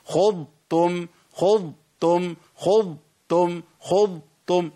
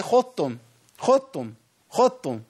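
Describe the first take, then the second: First: Very slow خضتم, full Dad, then a separate Ta; separated Dad and Ta. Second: خضتم run together, Dad turned into a thick Ta; quick, higher خضتم with no separate Dad; merged into heavy Ta. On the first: Teacher repeats so learners separate the letters, خضتم drawn out in two parts. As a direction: hold the Dad in خضتم before releasing تم. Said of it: "لا، لازم أفصل". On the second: Teacher shows the easy mistake, خضتم with Dad merged into Ta. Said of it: "كأني جبت تاء مفخمة شوية بس". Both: Shown as a demonstration.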